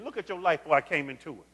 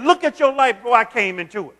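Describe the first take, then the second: First: The same line, much softer and lower; quieter, intimate. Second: Said in the usual way. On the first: Shown as a demonstration. Pastor repeating God's words softly to the congregation. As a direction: bring it close, as God speaking to you. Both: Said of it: "He's talking to you".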